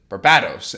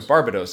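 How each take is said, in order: First: The middle syllable is stressed. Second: The middle syllable is not stressed. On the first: The speaker calls it right. "accentuating the bat part in it" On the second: The speaker calls it wrong. "that's what I was doing originally"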